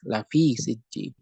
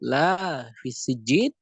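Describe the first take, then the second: First: The vowel of the first word is short. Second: The vowel of the first word is long. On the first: It is truly in Sijjin. "dibacanya pendek" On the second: There is nothing in Sijjin. "kalau dibaca panjang"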